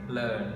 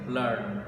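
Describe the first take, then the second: First: The r sound is pronounced only faintly. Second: The r sound is pronounced clearly. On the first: "in the British accent, it is pronounced vaguely" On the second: "in the American accent, the R is still pronounced clearly"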